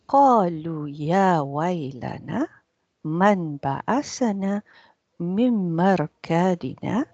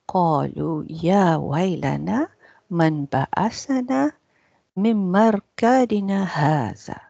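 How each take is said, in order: First: The reciting stops right after the word marqadina. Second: The reciting runs on and stops after the word hadha. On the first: The sentence ends with the question about being raised. "You stop at مركادنا" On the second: The word 'this' belongs to the first part of the sentence. "Or they said you can continue. ... you stop here"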